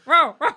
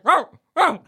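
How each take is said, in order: First: High, loud "Row, row" bark, laughing; the dog Follow answers in barks, playful mock bark. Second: High, loud "Row, row" bark; man stuck in a dog's body tries to talk, mock barking. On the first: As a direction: bark back like the old dog. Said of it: "Follow will just be like". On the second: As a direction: bark the words like a dog. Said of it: "it'll just come out as like".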